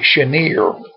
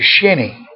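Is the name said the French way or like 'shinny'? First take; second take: French; shinny. First: It is said the French way, like shen-yay. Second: It is said like the word shinny. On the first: This follows how the name is spelled. "It looks like Chenier, which would be French" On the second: This is how local people say it. "but we all pronounce it Shinny"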